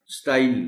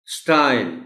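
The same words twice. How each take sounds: First: स्टाइल as "sta-il", two vowels; स्टाइल with a distinct short I before L; clear I-L ending. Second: स्टाइल as one smooth STYLE; स्टाइल said "stahl" with gliding vowel; single-syllable glide. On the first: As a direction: split स्टाइल into sta-eel. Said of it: "नहीं". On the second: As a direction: stretch the diphthong in स्टाइल, weak L. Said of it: "स्टाइल नहीं". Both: Shown as a demonstration.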